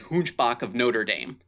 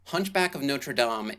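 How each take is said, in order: First: It is said with an American accent. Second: It is said with a French accent.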